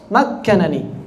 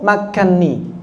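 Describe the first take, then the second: First: The two n sounds are pronounced separately. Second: The two n sounds merge into one doubled n. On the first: This is another reciter's reading. "beliau membaca dengan idhar" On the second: This is the common reading. "yang populer atau yang disepakati istilahnya idgham itu cuma satu"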